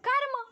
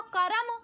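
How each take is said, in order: First: कर्म as one syllable, r running straight into m; correct pronunciation. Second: करम split into two syllables, ka-ram; mispronunciation. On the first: Teacher showing the word given in the song, correct pronunciation of कर्म. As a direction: say कर्म with no vowel between r and m. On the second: Teacher showing a singer's slip on the word, mispronounced करम. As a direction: slip a vowel between r and m in करम. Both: Shown as a demonstration. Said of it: "गलत हो रहा है pronunciation".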